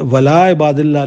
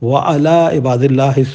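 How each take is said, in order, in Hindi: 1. 'wa' और 'ala' मिलकर 'wala' हो जाते हैं। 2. 'wa' और 'ala' अलग-अलग शब्द की तरह रहते हैं।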